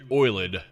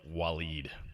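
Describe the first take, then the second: First: The name is squeezed into one syllable, like 'oiled'. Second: The name has two syllables, like 'wa-leed'. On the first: The speaker calls it wrong. "who I referred to as Oiled earlier" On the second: The speaker calls it right. "but his name is pronounced Waleed"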